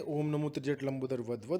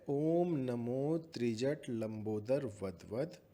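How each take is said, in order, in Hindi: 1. यह वाक्यांश तेज़ गति से बोला गया है। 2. यह वाक्यांश धीमी गति से बोला गया है।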